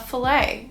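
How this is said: It is said with a Canadian pronunciation. "So in Canada, we would say a fillet"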